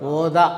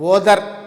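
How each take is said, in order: First: The word ends with an open ah vowel. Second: The word ends with an r sound. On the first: It is how native speakers say it. "German వాళ్ళు వచ్చేసి ఏం చేస్తారు ఓదా" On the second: It follows the spelling. "ఓదర్ అని జనరల్గా మనం పలుకుతాము spell spell చేసి"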